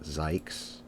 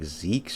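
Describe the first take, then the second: First: The vowel sounds like 'eye' in my. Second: The vowel sounds like 'ee' in see. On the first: It is read as a German name. The speaker calls it wrong. "not Zykes" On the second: It is read as a Dutch name. The speaker calls it right. "I think it's pronounced like Zeeks or something"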